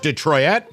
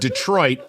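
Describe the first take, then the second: First: The word is pronounced in an odd, distorted way. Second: The word is pronounced in the ordinary way. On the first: The speaker calls it wrong. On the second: The speaker calls it right.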